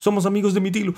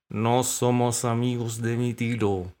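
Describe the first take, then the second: First: High, loud dog voice; bright-eyed pup piping up loudly; eager dog. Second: Slow, drawn-out correction, teeth clenched; through clenched teeth. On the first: Dog introducing himself to the cormorant, high and eager. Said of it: "dijo el perro". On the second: Cat correcting the dog, slowly through his teeth. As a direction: grit it out slowly. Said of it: "dijo entre dientes". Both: A narrator's reading.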